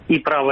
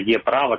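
First: The name begins with an 'ee' sound. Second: The name begins with an 'eh' sound. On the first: The letter is read the English way. "пускай, на английский манер" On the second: The letter is read the Ukrainian way. "на украинский манер это было «Е-право», как «Есть»"

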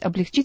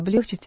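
First: The stress does not fall on the second syllable. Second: The stress falls on the second syllable. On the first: The speaker calls it right. "Нужно говорить «облегчить»" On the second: The speaker calls it wrong. "я произнесла слово «облегчить»"

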